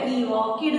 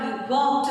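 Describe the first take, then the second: First: The ending is said as an extra 'id' syllable. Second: The ending is a short 't' without a vowel. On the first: The speaker calls it wrong. "He വാക്കിഡ് എന്ന് പറയില്ലല്ലോ" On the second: The speaker calls it right. "He വാക്ഡ് എന്നാ പറയാ"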